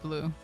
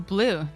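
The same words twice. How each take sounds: First: The word is said in a low voice. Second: The word is said in a high voice. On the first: "not blue" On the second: "with a high voice would be blue"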